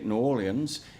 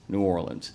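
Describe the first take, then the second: First: It is said the way uptown people say it. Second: It is said the way most locals say it. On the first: The speaker is from uptown. "if you're from uptown" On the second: The speaker is a local. "like the rest of us"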